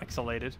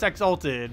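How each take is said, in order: First: The word is said as exhalated. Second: The word is said as exalted. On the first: The speaker calls it wrong. "not exhalated" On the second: The speaker calls it right. "it's exalted"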